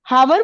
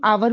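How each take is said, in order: First: The word begins with an audible h sound. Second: The word begins with a vowel, no h sound. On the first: The speaker calls it wrong. "इसको हम ह तो नहीं बोलते" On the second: The speaker calls it right. "इसको हम आवर बोलते हैं"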